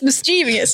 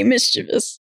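First: "mischievous" with CHEE stressed and vee-us after; four-syllable "mischievous", mis-CHEE-vee-us. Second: "mischievous" with MIS stressed, then chuh-vus; three-syllable "mischievous", MIS-chuh-vus. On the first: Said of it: "for me, it's". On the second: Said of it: "I should say". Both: Shown as a demonstration.

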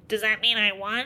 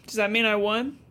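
First: Pinched-nose nerd voice. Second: Nerd voice. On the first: Sam asking Henri if he won, nerd voice. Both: Retold or imitated. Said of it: "nerd voice pinching your nose".

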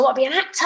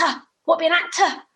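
First: Insisting. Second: The repeat goes much higher and pleads harder; stronger insisting. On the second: Retelling her protest to the agent, pitched high and pleading. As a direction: push the second one up, pleading. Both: Retold or imitated. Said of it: "I said".

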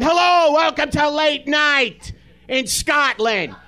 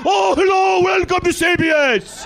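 First: Put-on Brooklyn accent. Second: Put-on Scottish accent. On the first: Comic imagining a Brooklyn host, hammed-up Brooklyn accent. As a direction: belt the hello like a Brooklyn guy. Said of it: "a guy from Brooklyn going". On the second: Comic mocking Ferguson's greeting, hammed-up Scottish accent. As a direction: ham up a Scottish talk-show welcome. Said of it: "Why do we have a guy going".

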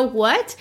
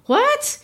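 First: A small, lightly puzzled what; understated confused what; mild what. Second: A mock shocked squeak of what. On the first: Retold or imitated. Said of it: "You're supposed to go". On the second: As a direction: shoot the word up in disbelief. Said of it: "and you're gonna say".

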